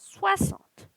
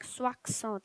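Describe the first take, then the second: First: The x is sounded as a plain s. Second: The x is sounded as ks. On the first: The speaker calls it right. "we pronounce it as soixante" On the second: The speaker calls it wrong. "I'm not saying it like soixante"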